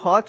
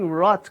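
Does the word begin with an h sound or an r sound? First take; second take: h sound; r sound. First: The word begins with an h sound. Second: The word begins with an r sound. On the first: It sounds like the word for hot. The speaker calls it wrong. "o hot, dá a impressão de ser quente" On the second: It means rotting. The speaker calls it right. "Mas é brain rot, como você bem colocou aqui"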